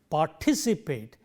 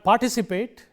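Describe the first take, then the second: First: The stress falls on the 'ti' syllable. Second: The stress falls away from the 'ti' syllable. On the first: The speaker calls it right. "third syllable from the end" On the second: The speaker calls it wrong. "It is not participate"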